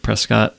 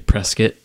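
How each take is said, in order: First: The last syllable has a full vowel. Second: The last syllable has a reduced, unclear vowel. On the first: The speaker calls it right. "It's an O. It literally Says Scott" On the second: The speaker calls it wrong. "teachers say Prescott instead of"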